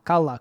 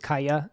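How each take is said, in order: First: The middle consonant is an L sound. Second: The middle consonant is a Y sound. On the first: This is how the audiobook narrator says it. "narrator just said Kala" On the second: This is the Spanish reading of the name. "I honestly would have been guessing that this was Kaya just looking at it"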